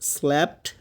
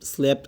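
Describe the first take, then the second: First: The vowel sounds like the 'a' in cat. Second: The vowel sounds like a plain 'eh'. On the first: The speaker calls it right. "উচ্চারণটা ভালো করে শুনেন। ... এরকম একটা sound বের হবে। ... স্ল্যা" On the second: The speaker calls it wrong. "Sorry, এখানে মানে ভালো করে বলি নাই।"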